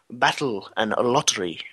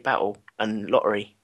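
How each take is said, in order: First: The T sounds are clearly pronounced. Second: The T sounds are glottal stops, London-style.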